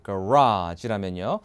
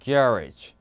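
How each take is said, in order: First: The stress is on the last syllable. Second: The stress is on the first syllable. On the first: "전형적인 미국의 차고 얘기하는 게" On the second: "이렇게 발음해요"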